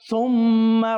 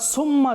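First: The word begins with a soft 'th' sound. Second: The word begins with a hissing 's' sound. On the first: The speaker calls it right. "আমরা সহি শুদ্ধ পড়ব" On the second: The speaker calls it wrong. "সুম্মা যদি বলি তাহলে সেটিকে হয়ে যাচ্ছে সিন হয়ে যাচ্ছে"

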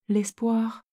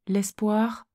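Both takes have the same delivery.

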